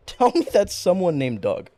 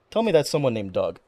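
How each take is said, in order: First: Laughing, pleading repeat; laughing, a bit higher plea. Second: Said in the usual way. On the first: Real, not acted. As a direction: beg through laughter.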